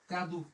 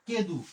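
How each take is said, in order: First: The first vowel is an open 'ah' sound. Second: The first vowel is an 'eh' sound. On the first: The speaker calls it right. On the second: The speaker calls it wrong. "এই জিনিসটাকে অনেকে বলি কেদু"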